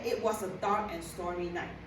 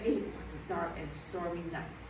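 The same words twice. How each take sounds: First: It is said at an ordinary pitch. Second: It is said in a very low, deep voice. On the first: The speaker calls it wrong. "you don't say" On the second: The speaker calls it right. "A very lower tone to portray that"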